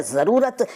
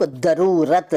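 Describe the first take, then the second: First: Said in the usual way. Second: दरूरत, opening on d instead of z. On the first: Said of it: "दरूरत नहीं". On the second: Shown as a demonstration. Teacher showing the rejected form, दरूरत with d for z. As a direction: start दरूरत with a d. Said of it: "आप दरूरत".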